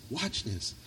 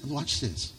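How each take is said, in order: First: A preacher hushing the church to listen close; softer, hushed. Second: Said in the usual way. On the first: Real, not acted. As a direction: repeat Watch this much softer. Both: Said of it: "And listen".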